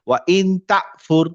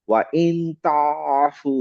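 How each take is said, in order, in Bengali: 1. এই গলার ব্যঞ্জনধ্বনিটি একটি দ্রুত, ছেড়ে দেওয়া কণ্ঠনালির আটকানো শব্দ। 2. এই গলার ব্যঞ্জনধ্বনিটি গলার মাঝখানে ধরে রাখা, চাপা একটি শব্দ। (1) "আমি যদি এখানে হামজা পড়তাম তাহলে এভাবে পড়তাম" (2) "গলার মাঝখানে আসতে হবে, এবং মাঝখানে এসে আমি ছাড়বো না, ধরে রাখবো"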